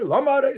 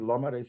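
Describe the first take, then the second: First: It is said in an accusing, challenging tone. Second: It is said as a sincere, curious request.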